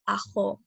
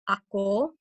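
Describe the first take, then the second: First: The middle consonant is a raspy fricative, x. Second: The middle consonant is a full stop, k. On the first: "or with the fricative" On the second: "it can be said with the with the stop"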